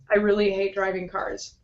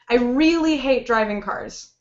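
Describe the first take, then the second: First: The whole sentence is said flat and unemphatic. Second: Really is stretched with lively, emphatic intonation. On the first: The speaker sounds bored, uncaring or scared. The speaker calls it wrong. "If I say it completely flat" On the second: The speaker strongly holds this opinion. The speaker calls it right. "We kind of bend it, we pull it a little bit because we want to emphasize the information"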